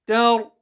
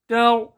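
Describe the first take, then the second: No difference in how they are said.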